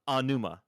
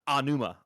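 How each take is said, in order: The two takes are said the same way.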